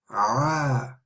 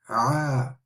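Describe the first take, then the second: First: The throat sound is strong and forceful. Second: The throat sound is strong and forceful.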